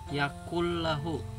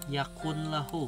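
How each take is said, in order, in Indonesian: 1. Bunyi n melebur menjadi bunyi l ganda. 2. Bunyi n dibaca sebelum l. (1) "jadi dibacanya yakullahu" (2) "Ini tulisannya ya"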